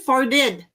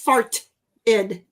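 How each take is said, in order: First: The T sound is dropped or softened. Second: The T sound is clearly pronounced. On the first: "I think I say farted" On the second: "I don't think I pronounce farted"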